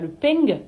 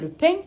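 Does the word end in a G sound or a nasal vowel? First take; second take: G sound; nasal vowel. First: It ends with an added G sound. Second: It ends in a plain nasal vowel. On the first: The speaker calls it wrong. "c'est pas le peng" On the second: The speaker calls it right. "c'est le pain"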